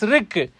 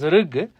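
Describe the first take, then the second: First: The word ends with a voiceless k sound. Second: The word ends with a voiced g sound. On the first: This is the original form of the word. "but originally it is rik" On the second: This is the common form after sandhi. "Then we call it as rig"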